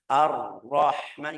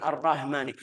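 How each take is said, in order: First: "Ar-Rahmani" slow, with a long airy h; correct drawn-out ha. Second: "Ar-Rahmani" run together with a short, light h; mispronounced short ha. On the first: Teacher modelling the right way, slow breathy ha. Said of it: "jangan Ar-Rahmani". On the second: Teacher showing what to avoid, short weak ha. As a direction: pass quickly over the h in "Ar-Rahmani". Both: Shown as a demonstration.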